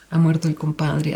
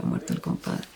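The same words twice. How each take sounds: First: Said in the usual way. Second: The headline fades to a voiceless whisper; fading whisper. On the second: Retold or imitated. Repeating the headline until it fades into a whisper. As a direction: let "ha muerto el compadre" die away into a whisper.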